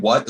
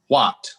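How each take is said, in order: First: Said in the usual way. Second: "what" over-enunciated with a crisp final T; overly correct pronunciation. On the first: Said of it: "So, like, when they say". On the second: Retold or imitated. Imitating British actors' too-good American accent, "what" over-pronounced. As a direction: say "what" too perfectly, finishing the T. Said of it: "their pronunciation is, like, too good".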